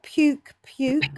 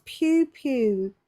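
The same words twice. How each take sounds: First: "puke, puke" ending on a hard k. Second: "pew, pew" short and clean with no k at the end. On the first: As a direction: close each "puke" with a clear k sound. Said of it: "It's pew". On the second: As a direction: say "pew" like a shot sound, ending on the vowel. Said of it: "not puke". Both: Shown as a demonstration.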